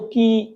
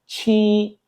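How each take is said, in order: First: The word starts with a 'k' sound. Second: The word starts with a 'ch' sound. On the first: The speaker calls it wrong. "आप इसको की इस तरह करके कुछ प्रोनाउंस कर रहे होंगे" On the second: The speaker calls it right. "लेकिन चाइनीज में ये क्या है"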